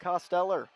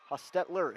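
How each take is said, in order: First: The middle T sound is weak or swallowed. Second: The middle T sound is clearly emphasized. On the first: The speaker calls it wrong. "excuse me" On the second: The speaker calls it right. "Really have to put the emphasis on the T in between"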